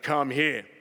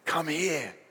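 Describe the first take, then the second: First: It is said in a harsh, stern tone. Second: It is said in a warm, gentle tone.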